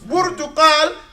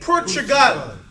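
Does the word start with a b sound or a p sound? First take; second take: b sound; p sound. First: It starts with a b and has a q sound. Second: It starts with a p and has a g sound. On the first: This is the original Arabic name. The speaker calls it right. "So Portugal became" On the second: This is the later changed European name. The speaker calls it wrong. "they didn't pronounce it properly, they called it Portugal"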